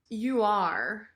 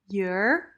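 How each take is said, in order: First: The two words are said as separate syllables. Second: The two words merge into one short syllable. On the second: "the contraction you're"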